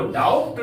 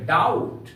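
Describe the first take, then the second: First: डाउट with the b sounded before the t, "doubt" as daubt; wrong pronunciation. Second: डाउट as "dowt", with silent b; correct pronunciation. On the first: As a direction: say डाउट as "dowbt". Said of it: "इसको डाउट नहीं पढ़ेंगे". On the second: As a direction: go straight from vowel to t in डाउट. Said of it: "इसको पढ़ेंगे डाउट". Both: Shown as a demonstration.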